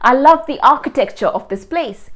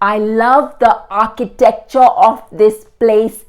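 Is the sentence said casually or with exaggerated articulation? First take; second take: casually; exaggerated articulation. First: The sentence is said with ordinary, relaxed articulation. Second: The sentence is said with exaggerated, precise mouth movements.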